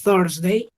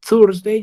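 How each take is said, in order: First: Thursday with air between tongue and teeth; Thursday with a breathy th. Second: Thursday with a hard t at the start; Thursday said as tursday; Thursday with a plain t; wrong Thursday. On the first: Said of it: "yo digo th". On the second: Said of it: "yo no digo Thursday". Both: Shown as a demonstration.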